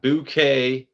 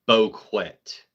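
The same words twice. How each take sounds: First: Bouquet said as "boo-KAY"; standard pronunciation. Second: Boquet said as "bo-KWET"; mispronounced bouquet. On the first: Streamer contrasting two ways for chat, bouquet as "boo-KAY". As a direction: bouquet with a drawn-out open "kay" ending. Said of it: "You got bouquet". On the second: Streamer contrasting two ways for chat, Boquet as "bo-KWET". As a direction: Boquet with a hard "kwet" on the end. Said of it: "put the right emphasis on the right syllable". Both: Shown as a demonstration.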